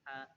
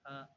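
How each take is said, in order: First: The h sound is said with a smile. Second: The h sound is said without a smile. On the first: The speaker calls it right. "Ha itu kan dibaca senyum" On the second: The speaker calls it wrong. "bukan ha"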